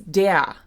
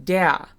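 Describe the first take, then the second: First: The final R is a vowel sound. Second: The same.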